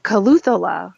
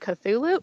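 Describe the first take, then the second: First: The name is said as Caluthula. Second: The name is said as Cthulhu. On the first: Someone else's mistaken version of the name. The speaker calls it wrong. "as my husband would pronounce it" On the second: The usual version of the name. The speaker calls it right. "you mean Cthulhu?"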